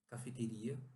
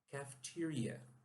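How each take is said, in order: First: It is said with Portuguese pronunciation. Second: It is said with English pronunciation. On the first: "nós temos essa palavra em português" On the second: "mas a pronúncia aqui é"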